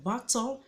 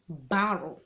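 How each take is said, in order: First: The middle consonant is a crisp t sound. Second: The middle consonant is a soft d-like tap. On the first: This is how the word is written. "Quand tu regardes bien, c'est battle" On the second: This is how Americans often actually say it. "mais souvent, ils diront battle"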